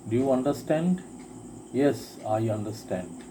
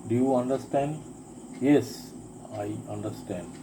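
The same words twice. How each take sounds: The two takes are said the same way.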